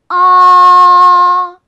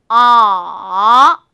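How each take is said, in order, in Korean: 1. 처음부터 끝까지 높고 평평하게 유지돼요. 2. 아주 낮게 떨어졌다가 다시 약간 높게 올라가요. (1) "일성은 높은 음에서 높은 음까지 쭉 어, 밀어주면서 발음하시면 돼요" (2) "낮은 음에서 시작해서요, 그 다음에 아주 낮은 음으로 뚝 떨어뜨리세요. 그리고 나서 다시 약간 높은 음으로 올라오는"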